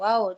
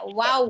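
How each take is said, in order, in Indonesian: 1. Huruf ini diucapkan dengan bunyi yang tebal dan berat. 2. Huruf ini diucapkan dengan bunyi yang tipis dan ringan. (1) "menjadi tebal" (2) "Kalau wow itu tipis harusnya"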